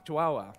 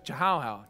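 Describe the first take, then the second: First: Chihuahua said chi-wah-wah, soft and quick; corrected name. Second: Chihuahua sounded out as chi-how-how, with a hard ch; stumbling over chihuahua, saying it chi-how-how; tripping on the name. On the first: Preacher correcting himself, saying chihuahua as chi-wah-wah. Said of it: "Ch-, chihuahua". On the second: Preacher fumbling the dog's name, saying chihuahua as chi-how-how. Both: Shown as a demonstration.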